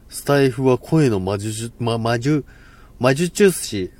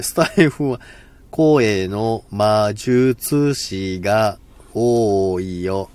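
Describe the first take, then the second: First: 声の魔術師 stumbled over, 魔術 repeated and restarted; tongue-tied fumble. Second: 声の魔術師 spelled out syllable by syllable, very slowly; careful slow take. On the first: Streamer trying a tongue twister on stream, fumbling it. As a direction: trip over 魔術師 like a failed tongue twister. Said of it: "これ、ろれつ回んない". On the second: Streamer retrying the tongue twister, very slow and careful. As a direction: drag 魔術師が多 out slowly so each sound lands. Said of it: "はい、言えました". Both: Shown as a demonstration.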